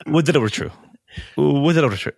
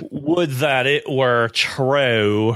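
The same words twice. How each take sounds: First: Crisp, clipped-free light English reading, raised pitch; proper English delivery. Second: Slow, drawn-out cowboy drawl on every word; Hobie's drawl. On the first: Shown as a demonstration. Host showing how the line should sound, light English lilt. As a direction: say it the polished way the director wants. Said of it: "the way the line's supposed to go is". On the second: Retold or imitated. Podcast host imitating Hobie fumbling his line, slow cowboy drawl. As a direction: stretch it out like a Western stunt man. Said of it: "he delivers the line".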